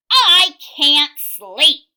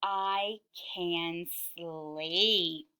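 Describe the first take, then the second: First: Loud, high, drawn-out complaint; farmer yelling. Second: Very slow, lower, drowsy; relieved farmer. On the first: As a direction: holler it slowly, stretching each word. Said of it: "yelled the farmer". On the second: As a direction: stretch each word out as if drifting off. Farmer finally able to sleep. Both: A narrator's reading.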